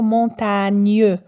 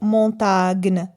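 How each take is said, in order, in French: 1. Le g et le n se fondent en un son ny. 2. Le g se prononce comme un g dur. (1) "On va lire montagne" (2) "on ne va pas lire"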